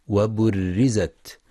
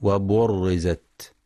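First: وبرزت with a thin, light ra, slowly. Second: وبرزت with a thick, emphatic ra, slowly; wrong heavy ra. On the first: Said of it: "لترقيق الراء". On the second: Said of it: "فلا يقرأ بالتفخيم". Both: Shown as a demonstration.

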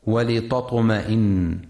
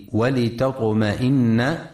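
First: "ولتطمئن" said with the ت thickened like a ط; heavy ta. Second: "ولتطمئن" said walitatma'inna, the ت thin and light. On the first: Teacher showing listeners the reading to avoid, "ولتطمئن" with a heavy ت. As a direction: darken the ت in "ولتطمئن" into a heavy emphatic t. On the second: Teacher showing listeners the correct reading, "ولتطمئن" with a thin ت. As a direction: keep the ت in "ولتطمئن" a light t before the heavy ط. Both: Shown as a demonstration. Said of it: "لترقيق التاء وعدم تفخيمها".

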